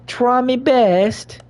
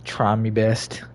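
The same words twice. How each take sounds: First: High, slow mock British "Try me best."; hammy British put-on voice; mock British accent. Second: Said in the usual way. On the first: Shown as a demonstration. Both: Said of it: "repeats in put-on voice".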